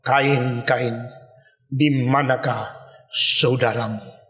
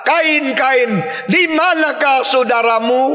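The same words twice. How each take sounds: First: Low, soft, slow voice of God calling; God calling Cain. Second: God calling Cain. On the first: God searching for Cain after the killing, low and slow. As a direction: let God's question sink low and slow, almost sorrowful. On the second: God calling Cain to account, raised and slow. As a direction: call out to Cain, demanding an answer. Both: Acted.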